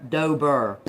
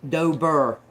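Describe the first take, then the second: The two takes are said the same way.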